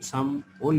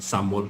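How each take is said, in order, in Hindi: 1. दोनों अक्षर अलग-अलग बोले जाते हैं, पहले sam फिर wol। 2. अक्षर जल्दी से एक साथ जुड़कर samol बोले जाते हैं। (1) "साम ओल लेखे पनि" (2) "छिटो पढ्दाखेरि के हुन्छ त सामोल हुन्छ"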